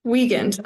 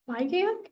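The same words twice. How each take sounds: First: Weigand said firmly as WEE-gend, louder and falling; settled name. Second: Weigand? asked with a high questioning rise, unsure how to say it; unsure questioning try at the name. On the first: Chair settles on the name, firm and confident. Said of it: "all right". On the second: Chair tries a new member's name, unsure and questioning. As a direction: test the name Weigand? tentatively, pitch rising. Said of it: "Weigand, all right". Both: Real, not acted.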